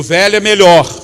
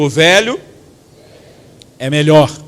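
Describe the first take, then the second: First: It is said with excited enthusiasm. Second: It is said flatly, without enthusiasm.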